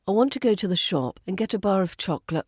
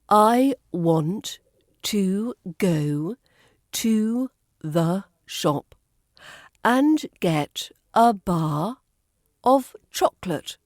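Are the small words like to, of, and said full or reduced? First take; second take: reduced; full. First: Smoothly, with the small words reduced and linked. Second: Slowly, with every small word said in full. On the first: "with the weak forms. It should sound more like" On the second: "I'll say this slowly, using the strong forms"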